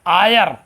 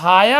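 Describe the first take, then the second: First: The word begins with a vowel sound. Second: The word begins with an h sound. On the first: The speaker calls it right. "यच silent हो जाता है" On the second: The speaker calls it wrong. "लिखा हायर है"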